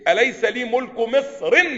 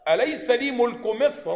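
First: The last word ends with an 'i' vowel. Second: The last word ends with an 'a' vowel. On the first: The speaker calls it wrong. "مع ان لو انت ما منعتهاش من الصرف كنت قلت ايه؟" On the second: The speaker calls it right. "لكن لا ما بتتكسرش بقى"

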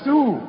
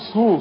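First: The s is light and thin, a plain sin. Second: The s is heavy and emphatic, like sad. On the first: The speaker calls it right. "سبحانه رقق السين قوي" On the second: The speaker calls it wrong. "احسن تطلع معاك صاد"

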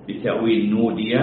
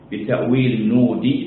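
The two takes are said the same way.

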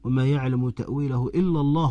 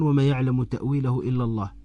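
First: It runs on without a pause after the last word. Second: It stops with a full pause after the last word. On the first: God and those firm in knowledge know its interpretation. "تقف يقولون" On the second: Only God knows its interpretation. "تقف هنا عندها معنى"

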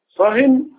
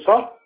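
First: The word ends with an added n sound. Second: The word ends without an n sound. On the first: Be silent about any talk at all. "اسكت عن اي كلام" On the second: Be silent about this particular talk. "يعني اسكت عن كلام معين"

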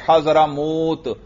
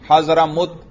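First: The vowel in the last syllable is long. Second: The vowel in the last syllable is short. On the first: "اسی پیش کو آپ نے لمبا کر دیا" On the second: "اگر واو نہ ہوتا کیسے پڑھتے؟"

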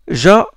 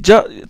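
First: The consonant lets air flow through continuously. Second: The tongue fully blocks the air before release. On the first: The speaker calls it wrong. "il y a de l'air qui passe" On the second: The speaker calls it right. "la langue, il touche le haut, il touche le palais"

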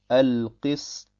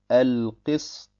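Both takes have the same delivery.

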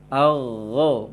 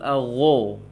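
First: The lips stay relaxed; the tongue back raises. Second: The lips are pushed out and rounded. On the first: The speaker calls it right. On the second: The speaker calls it wrong.

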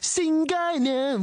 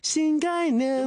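First: The first syllable has a falling fourth tone. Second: The first syllable has a high level tone. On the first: It sounds like a different, embarrassing word. The speaker calls it wrong. "我唱咗性概念咯" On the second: It means 'new concept'. The speaker calls it right. "应该新概念"

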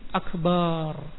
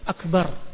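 First: The vowel in the last syllable is drawn out long. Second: The vowel in the last syllable is short. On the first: The meaning is changed. The speaker calls it wrong. "menjadi akbar" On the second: God is the Greatest. The speaker calls it right. "menambah alif dalam kalimat akbar"

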